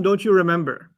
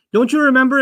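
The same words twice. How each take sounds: First: Said in the usual way. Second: "Don't you remember?" higher and louder, gently prodding; reminding question. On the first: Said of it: "This is different from". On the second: Shown as a demonstration. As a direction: nudge their memory. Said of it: "is said when someone forgets".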